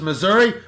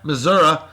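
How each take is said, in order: First: It ends with an 'ee' sound. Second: It ends with an 'uh' sound, like 'Missour-ah'.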